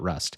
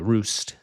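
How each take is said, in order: First: The vowel is a short 'uh' sound. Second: The vowel is a long 'oo' sound. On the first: The speaker calls it wrong. "not Rust" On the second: The speaker calls it right. "is apparently how you pronounce it"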